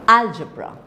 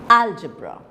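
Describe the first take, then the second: No difference in how they are said.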